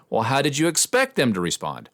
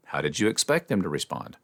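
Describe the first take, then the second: First: Higher challenge with "expect" punched; accusing question leaning hard on "expect"; negative, accusatory. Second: Said in the usual way. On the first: Shown as a demonstration. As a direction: hit "expect" high, as if calling them out. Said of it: "would be a negative use". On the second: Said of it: "negative use of the same words".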